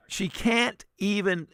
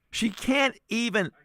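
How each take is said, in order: Both takes have the same delivery.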